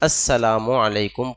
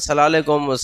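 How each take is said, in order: First: Every syllable of the greeting is fully pronounced. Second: The greeting is clipped and run together quickly. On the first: The speaker calls it right. "पूरा पूरा सलाम, सही सही सलाम" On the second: The speaker calls it wrong. "सलालेकुम कोई सलाम है ही नहीं"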